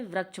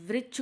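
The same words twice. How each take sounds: First: वृक्ष mispronounced as vrachh; ri read as ra. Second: Said in the usual way. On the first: Shown as a demonstration. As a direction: put an "a" for the "i" in वृक्ष. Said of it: "लोग पढ़ते हैं रा". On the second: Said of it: "री लिखकर रा पढ़ते हैं".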